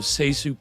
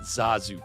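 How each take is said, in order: First: The first syllable sounds like 'say'. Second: The first syllable sounds like 'zah'. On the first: The speaker calls it right. "it's apparently pronounced Seisu" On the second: The speaker calls it wrong. "not Zazu Pitts"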